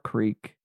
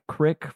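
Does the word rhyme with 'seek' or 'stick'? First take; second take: seek; stick. First: The vowel is long, rhyming with seek. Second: The vowel is short, rhyming with stick. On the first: This is the standard pronunciation. The speaker calls it right. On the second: This is a regional Utah pronunciation. The speaker calls it wrong.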